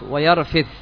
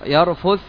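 First: The vowel after the r is 'i'. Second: The vowel after the r is 'u'. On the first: "وبالكسر" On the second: "بالضم"

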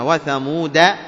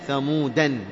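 First: The word ends on a short 'a' vowel only. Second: The word ends with an added 'an' sound. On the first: This follows the Hafs reading tradition. "فقط بفتحة الدال" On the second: This follows another reading tradition. "في من القراء ثمودا نونها"

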